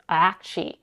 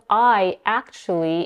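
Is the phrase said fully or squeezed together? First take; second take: squeezed; fully. First: The words blend into one quick reduced word. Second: Both words are said fully and separately. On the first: "it becomes acchi" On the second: "instead of I, actually"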